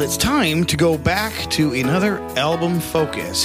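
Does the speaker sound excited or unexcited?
unexcited. The voice sounds flat and unexcited.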